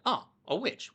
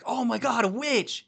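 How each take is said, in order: First: It sounds casual and unsurprised. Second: It sounds shocked and amazed.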